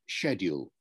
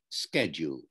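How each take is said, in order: First: The word has a British pronunciation. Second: The word has an American pronunciation. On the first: "I say the word schedule" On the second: "the American pronunciation"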